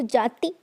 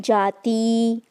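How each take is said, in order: First: The final vowel is a short i. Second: The final vowel is a long ee. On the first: The speaker calls it right. "छोटी ई की" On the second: The speaker calls it wrong. "ना कि जाति"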